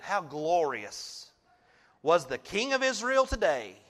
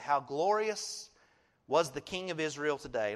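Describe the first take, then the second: First: It is read mockingly, in Michal's manner. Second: It is read plainly, as neutral scripture.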